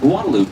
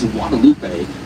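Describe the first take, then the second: First: The name is said with an English-style pronunciation. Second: The name is said with Spanish pronunciation. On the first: This is how locals in the city say it. "then why do we call it" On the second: This is how Spanish speakers say it. "if you speak Spanish or habla español, you probably pronounce this as"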